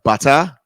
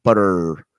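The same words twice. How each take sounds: First: Mock-English BUTTER with crisp t, no r; English accent. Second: Exaggerated American BUTTER with a long final r; American accent. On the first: Host imitating the accent teacher's example, English accent. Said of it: "difference between American and English accent". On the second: Host imitating teacher showing how Americans say it, American accent. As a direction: draw out the r in Butter, American style. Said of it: "like, Americans would say it".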